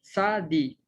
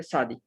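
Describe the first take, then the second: First: "sa di" read as two separate syllables. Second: "sadi" said fast and joined up; blended whole word. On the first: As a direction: sound out "sa" then "di" with a gap. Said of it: "forma la sílaba di". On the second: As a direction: run "sadi" together as one word. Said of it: "Y ahí está la consonante". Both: Shown as a demonstration.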